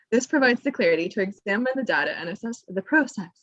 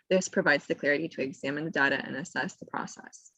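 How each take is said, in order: First: "process" said PROH-sess, with a long O; British process. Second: Said in the usual way. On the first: Shown as a demonstration. Rereading the caption as wanted, "process" said British-style as PROH-sess. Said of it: "I wanted to say". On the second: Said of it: "I wanna say process".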